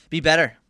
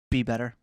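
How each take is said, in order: First: Louder insistent be better. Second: Said in the usual way. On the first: Shown as a demonstration.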